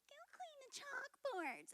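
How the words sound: It is said in a mocking imitation.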